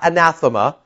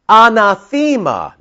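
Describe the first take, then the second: First: The middle syllable has a short vowel sound. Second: The middle syllable has a long E sound. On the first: The speaker calls it wrong. "not anathema" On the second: The speaker calls it right. "The correct pronunciation is anathema because there's an eta... that long E sound"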